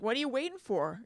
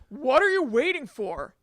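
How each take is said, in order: First: It is asked in a calm, casual tone. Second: It is said in a combative, aggressive tone.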